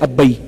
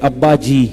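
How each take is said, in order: First: The words are said fast, merged into one. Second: Both words are said fully and separately. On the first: "जल्दी जल्दी वो कहते थे अब्बई" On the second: "अपने अब्बा को कहते थे अब्बा जी"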